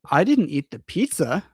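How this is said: The stress falls on the word pizza. "the stress is on the pizza"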